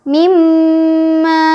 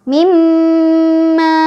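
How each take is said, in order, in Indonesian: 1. M yang digandakan itu berdengung dan ditahan lama. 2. M yang digandakan itu berdengung dan ditahan lama.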